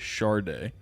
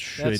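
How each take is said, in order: First: An R sound is in the middle. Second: No R sound is in the middle. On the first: Many people pronounce it this way. "a lot of people put an R in the middle" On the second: This is reportedly the correct name. "apparently it's"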